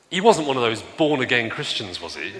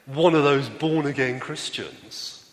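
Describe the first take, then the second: First: A retold driver's mild sneer at born-again Christians; disdainful question. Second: Slow, dragged-out mild sneer on "One of those"; mock disdain. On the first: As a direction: let a light contempt color the question. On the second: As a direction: linger on the words as if they taste bad. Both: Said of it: "the tone of voice with which he said".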